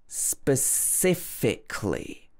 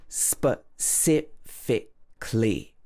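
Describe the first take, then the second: The two takes are said the same way.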